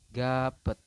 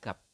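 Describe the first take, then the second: First: An extra vowel is added after the final consonant. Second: The word ends cleanly on the final consonant. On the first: The speaker calls it wrong. "kemungkinan besar Anda akan membacanya adalah gapet seperti ini" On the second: The speaker calls it right. "pembacaan yang betul adalah gap"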